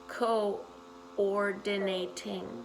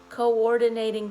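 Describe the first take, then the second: First: The word is said slowly and deliberately. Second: The word is said at normal speed.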